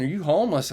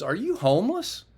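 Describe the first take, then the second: First: Said in the usual way. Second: Surprised question. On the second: Retold or imitated. Officer asks.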